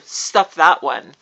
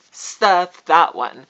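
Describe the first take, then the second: First: Firm and deliberate; forceful, slow. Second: Each word landed hard; louder, slower. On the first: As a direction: put it down firmly. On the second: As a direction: stamp it down slowly. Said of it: "So stuff that one". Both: Real, not acted.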